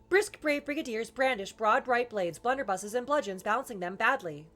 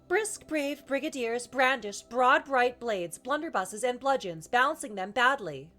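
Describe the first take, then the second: First: It is said somewhat faster than ordinary speech. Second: It is said at an ordinary speaking speed. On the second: "start kind of normal speed"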